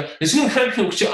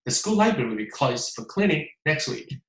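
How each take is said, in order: First: Hurried, trying to keep up; breathless rushed imitation; rushed copy. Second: Calm, even, unhurried; settled natural pace; own steady pace. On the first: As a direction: chase the recording and stumble. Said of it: "哎呀，跟不上". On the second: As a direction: say it at your own rhythm. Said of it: "你按照自己的速度来". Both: Shown as a demonstration.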